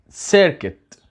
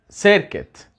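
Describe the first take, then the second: First: The second syllable is said like 'kit'. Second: The second syllable is said like 'kit'.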